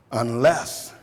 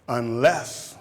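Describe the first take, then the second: No difference in how they are said.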